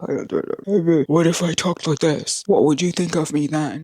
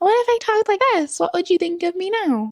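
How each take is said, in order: First: It is said in a put-on deep voice. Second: It is said in her normal voice.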